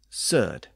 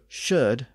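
First: The word begins with a plain 's' sound. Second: The word begins with a 'sh' sound. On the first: This is the northern dialect form. "was often pronounced as a simple s sound in the north" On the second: This is the standard London form. "The sh sound at the beginning of words"

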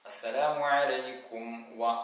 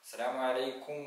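First: The lips close for a clear m before wa. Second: The m before wa is slurred or dropped. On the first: The speaker calls it right. "ആ ചുണ്ട് കൂട്ടി ... മീം ഉച്ചരിച്ചതിന് ശേഷമാണ് വാവ് പറയേണ്ടത്" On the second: The speaker calls it wrong. "എന്ന് പറഞ്ഞാൽ മതിയാവില്ല"

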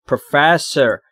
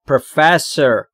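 First: The stress is on the second syllable. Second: The stress is on the second syllable.

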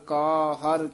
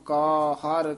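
Both takes have the same delivery.

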